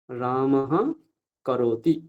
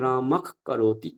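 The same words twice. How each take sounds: First: Said in the usual way. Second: রামক ends in a drawn-out throat খ before করতি; jihvamuliya pronunciation. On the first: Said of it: "যেমন রামহ করতি". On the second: Shown as a demonstration. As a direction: slowly turn the breath after রামক into a kh. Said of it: "তাহলে কি করব আমরা". (জিহ্বামূলীয় উচ্চারণ)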